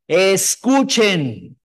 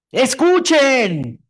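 First: Slow, stretched Escuchen as a call; emphatic reading. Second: Slow, loud, drawn-out ¡Escuchen!; exclaimed. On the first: Preacher rereading the verse with the right emphasis. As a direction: draw out Escuchen with weight. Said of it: "haces un énfasis". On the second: Preacher showing the congregation how to read an exclamation. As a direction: call out ¡Escuchen! slowly as an exclamation. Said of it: "Cuando lees signos de admiración, ¿cómo los lees?". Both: Shown as a demonstration.

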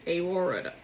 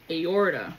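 First: "aorta" slurred toward aurora, the t dropped; "aorta" half-swallowed, nearly "aurora"; garbled aorta. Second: Correcting herself: "Aorta" said clearly; careful aorta. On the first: Real, not acted. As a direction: stumble on "aorta" so it comes out "eora". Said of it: "Why can't I say that? I wanna say aurora". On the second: Shown as a demonstration. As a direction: land "Aorta" cleanly, each syllable placed. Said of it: "There it is".

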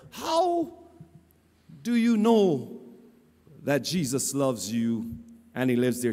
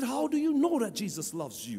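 First: Playing the fool. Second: Said in the usual way. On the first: Preacher playing the fool questions cashier, exaggerated mock puzzlement. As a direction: feign puzzlement, pausing heavily between phrases. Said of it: "playing the fool, I said to her".

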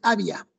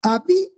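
First: "había" misread as two syllables, A-bia; missing-tilde stress. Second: "Había" broken up, a-BI, pause, a, high on BI; stressed hiatus. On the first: Teacher showing it without tilde, "había" wrongly said A-bia. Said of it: "Si no le pones". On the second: Teacher showing a hiatus, "Había" split with high stressed BI. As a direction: lift and punch the BI of "Había". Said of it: "en había hay que colocar tilde". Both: Shown as a demonstration.

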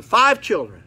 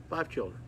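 First: "five" hit hard and loud, higher pitch; emphatic. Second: Said in the usual way. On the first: Real, not acted. Repeats count for emphasis.

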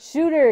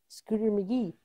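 First: Shooter said with a sh sound, firmly; Shooter, not Scooter, with a clear sh; corrected name. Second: Scooter McGee with a k sound after the s; wrong name. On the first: Correcting herself to the right name Shooter. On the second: Mixing up the golf villain's name. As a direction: Scooter said as she wrongly remembered it. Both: Real, not acted.

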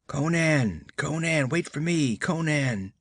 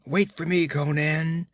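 First: Faint calling. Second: Calling more distinctly. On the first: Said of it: "a voice called faintly back". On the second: A voice calling Conan from across the glade, nearer and clearer. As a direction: call out clearly so he hears you. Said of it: "The voice came more distinctly". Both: Acted.

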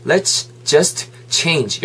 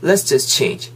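First: "Let's just change" word by word; three separate words. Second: "let's just change" as one linked chunk; run together. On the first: Teacher showing the three pieces, "Let's just change" separated. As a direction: give each word of "Let's just change" its own beat. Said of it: "요만한데 세 개가 그냥". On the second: Teacher showing three words merging, "let's just change" linked. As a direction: blend "let's just change" without breaks. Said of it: "세 개가 그냥 여름이 돼버리면은". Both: Shown as a demonstration.

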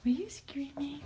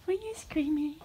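First: Hushed whispered question. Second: Said in the usual way. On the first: Real, not acted. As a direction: breathe it out with no voice. Asks bird twice, whisper then voiced.

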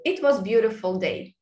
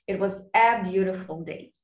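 First: Said in the usual way. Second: "a" set out clearly before "beautiful"; corrected with article. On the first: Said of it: "show the missing articles". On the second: Shown as a demonstration. Student correcting the missing article, stressing "a". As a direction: make the added "a" distinct in "It was a beautiful day". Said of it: "then they say article".

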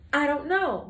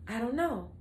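First: A bit louder, punching the words out; emphatic answer. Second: Said in the usual way. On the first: Shown as a demonstration. Vlogger teasing viewers about her streak, emphatic. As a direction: slam the answer down with a shrug.

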